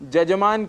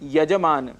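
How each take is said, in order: First: The word begins with a 'j' sound. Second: The word begins with a 'y' sound. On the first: The speaker calls it wrong. "य के स्थान पर ज लगा करके जजमान कह देते हैं" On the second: The speaker calls it right. "जैसे शब्द होता है यजमान"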